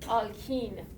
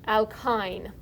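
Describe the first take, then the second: First: It has a Farsi pronunciation, not rhyming with wine. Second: It has an English pronunciation, rhyming with wine. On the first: "in Farsi we call this" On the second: "this is rhymes with wine"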